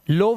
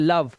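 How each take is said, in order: First: The vowel sounds like 'oh'. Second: The vowel sounds like 'uh'. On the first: The speaker calls it wrong. "लोव नहीं पढ़ते" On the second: The speaker calls it right. "आवाज आती है लव"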